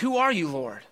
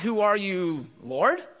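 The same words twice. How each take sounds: First: The stress is on "Who". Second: The stress is on "Lord", questioning it.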